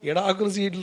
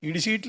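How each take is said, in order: First: The first word is said with all syllables. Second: The first word is clipped to two syllables. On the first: The speaker calls it right. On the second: The speaker calls it wrong.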